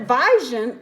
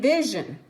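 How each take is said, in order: First: "vision" said as VYE-zhun; long I mispronunciation. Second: "vision" said as VIZH-un; short I. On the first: Teacher plays puzzled pupil misreading, "vision" as vye-zhun. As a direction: say "vision" wrongly with a long I, like eye. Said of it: "I've never heard of that word". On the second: Teacher gives the known word, "vision" as vizh-un. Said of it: "the short sound". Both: Shown as a demonstration.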